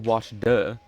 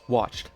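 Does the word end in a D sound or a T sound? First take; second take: D sound; T sound. First: The word ends with a separate D sound. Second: The word ends with a T sound. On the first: The speaker calls it wrong. "We don't say watch duh" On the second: The speaker calls it right. "with the T sound"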